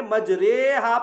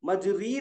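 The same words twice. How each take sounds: First: मजरेहा with a long "ray" vowel; majhool reading. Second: मजरी ending in a long clear ee; maroof "ee" reading. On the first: Teacher showing majhool to students, मजरेहा with long ay. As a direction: draw out मजरेहा with ay, not ee. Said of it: "ये मजहूल के तरीके से पढ़ना है". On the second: Teacher warning the class off maroof, मजरी with ee. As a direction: say मजरी with "ree". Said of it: "मजरी नहीं पढ़ के". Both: Shown as a demonstration.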